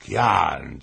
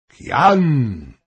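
First: Said in the usual way. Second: Loud, high call falling away; shouted summons from a king; king's shout. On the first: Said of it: "zapytał król". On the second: A narrator's reading. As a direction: call the name out sharply across the hall. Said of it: "krzyknął król".

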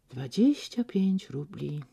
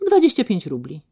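First: Slow, softer schoolboy repeating; softer, slow rote repetition. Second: Said in the usual way. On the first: Acted. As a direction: recite it like a lesson to yourself. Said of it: "powtórzył znowu jak uczniaczek".

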